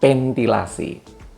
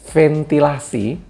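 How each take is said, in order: First: It is said with a p sound instead. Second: It is said with a standard v sound. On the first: This is how a Sundanese speaker says it. "dengan ventilasi" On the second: This is the intended word. "Orang Sunda akan menyebut ventilasi"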